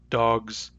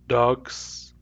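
First: The word ends with a Z sound. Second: The word ends with an S sound. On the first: "These words have Z" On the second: "If I say these with S instead"

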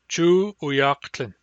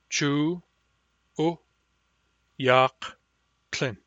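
First: The phrase is said smoothly without breaks. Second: Each syllable is said separately with breaks.

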